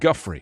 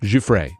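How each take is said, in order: First: The name begins with a hard g sound. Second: The name begins with a j sound. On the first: The speaker calls it wrong. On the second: The speaker calls it right.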